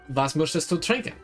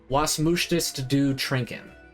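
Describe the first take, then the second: First: It is spoken with a German accent. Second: It is spoken with an American accent. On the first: The speaker calls it right. "That sounds more German to me" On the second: The speaker calls it wrong. "you pronounced it like an American"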